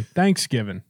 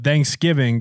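First: Thanksgiving with the stress misplaced; mis-stressed Thanksgiving, as an imitated slip; emphasis on wrong part. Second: Said in the usual way. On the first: Shown as a demonstration. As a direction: say Thanksgiving, leaning on the wrong syllable. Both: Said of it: "put the emphasis on the wrong part".

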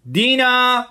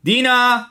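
First: High, loud drawn call; calling out again. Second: High, loud call across the yard. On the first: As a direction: summon the daughter once more, loud and high. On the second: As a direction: shout the girl's name to summon her. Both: Acted. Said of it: "مرد خندید و صدا زد".

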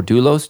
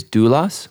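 First: Doulos said DOO-lohss, long O ending; alternate Greek pronunciation. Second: Doulos said DOO-luhs, short unrounded ending; alternate Greek pronunciation. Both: Shown as a demonstration. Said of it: "depending on how you pronounce it".

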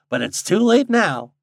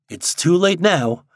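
First: High, loud teasing rustic; lightly amused backwoods voice; chuckling old guide. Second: Slow, emphatic inner grumble, pitched up; a touch of angry resignation; mildly angry. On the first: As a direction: needle him with mild country glee. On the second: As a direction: weigh each word in understated annoyance. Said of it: "thought Steve angrily". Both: A narrator's reading.

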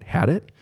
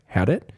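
First: "Had it?" rising sharply higher at the end; quizzical rising question. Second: "Had it?" as a gentle questioning echo. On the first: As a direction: sound puzzled: "Had it?" sweeping up high. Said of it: "You can raise your voice a little bit". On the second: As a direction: ask "Had it?" back with a slight lift. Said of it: "put that question mark at the end by saying it a certain way". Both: Shown as a demonstration.

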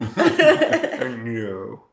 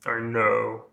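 First: Weaker, hammed-up second impression; Alan Rickman. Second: Actor impression, first attempt; Alan Rickman. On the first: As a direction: botch the actor's voice through laughter. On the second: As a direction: try the Snape actor's voice on two words. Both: Shown as a demonstration. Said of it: "it was better the first time".

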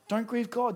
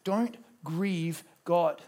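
First: Said in the usual way. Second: Don't grieve God, stretched very slow; solemn quote; slow quotation. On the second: Shown as a demonstration. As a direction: read it slowly, weighing each word. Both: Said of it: "He says this".

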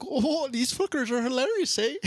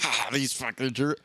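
First: Much higher, hammed-up Canadian accent ending on eh; mock Canadian accent for a drunk fisherman, played for laughs; exaggerated Canadian accent, lifting up into the eh. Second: Barely-there mock Southern accent, half-hearted; understated Southern accent, a passing joke. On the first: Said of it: "They're in Canada". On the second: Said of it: "I don't know why I made them Southern".

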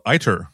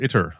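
First: "iter" said with a long first vowel, EYE-ter; alternative pronunciation. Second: "iter" said with a short first vowel, IT-er; alternative pronunciation. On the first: Host unsure how to name the new package, trying "iter" as EYE-ter. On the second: Host offering the other option for the package name, "iter" as IT-er. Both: Shown as a demonstration. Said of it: "I don't know how you pronounce that".

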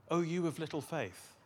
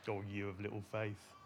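First: A mildly reproving Jesus; stern reproach. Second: Low, soft, fond tease; gentle teasing. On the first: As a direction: say it as a restrained rebuke. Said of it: "Is he angry?". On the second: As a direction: tease them quietly and affectionately. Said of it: "teasing them?". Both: Shown as a demonstration.

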